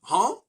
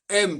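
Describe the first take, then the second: First: The word ends with an n sound. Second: The word ends with an m sound. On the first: This is how the writing system says it should be. "devrait dire han" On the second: This is how people actually say it. "Hem devrait dire han"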